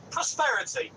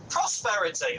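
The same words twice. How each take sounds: First: "prosperity" said as a question, pitch rising high at the end; unsure guess. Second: Said in the usual way. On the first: Real, not acted. Caller groping for a word, "prosperity" asked with a high rising tune. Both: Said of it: "that's the word I'm looking for".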